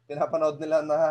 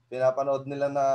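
No difference in how they are said.

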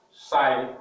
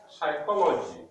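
First: "Psychology" in four separate, louder syllables; syllabified. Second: Said in the usual way. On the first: Shown as a demonstration. Teacher showing four syllables, "Psychology" firmly broken up. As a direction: say "Psychology" as psy, cho, lo, gy, pausing between. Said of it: "four syllables". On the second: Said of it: "we are going to syllabify words".

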